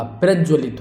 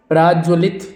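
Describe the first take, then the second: First: प्रज्वलित with short "praj"; correct short vowel. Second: प्राज्वलित with long "praaj"; long-vowel mistake. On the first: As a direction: keep the first a of प्रज्वलित short. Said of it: "प्रज्वलित होगा". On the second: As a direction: drag out the first vowel of प्राज्वलित. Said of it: "नहीं होगा". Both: Shown as a demonstration.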